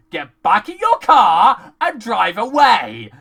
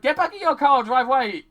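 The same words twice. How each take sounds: First: Loud, slow, spaced-out command; emphatic order. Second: Quick, higher-pitched urging; hurried order. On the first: Viewer ordering the crew to leave, slow emphatic order. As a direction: spell it out loudly for fools. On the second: Viewer urging the crew to leave, quick impatient order. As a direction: rattle it off impatiently. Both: Acted.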